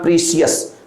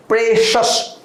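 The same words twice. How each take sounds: First: Precious said as PREE-see-us; wrong way. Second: Precious said as PRESH-us; right way. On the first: Teacher shows students the wrong "precious", pree-see-us. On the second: Teacher models "Precious" as PRESH-us for students. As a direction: say "Precious" with a short e and sh sound. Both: Shown as a demonstration. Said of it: "not precious".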